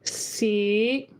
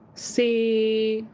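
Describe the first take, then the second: First: Tone five, floating up at the end. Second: Tone six, another distinct pitch. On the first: "tone five ... Let it float up a little bit at the end" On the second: "number six"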